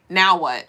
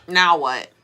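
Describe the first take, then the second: No difference in how they are said.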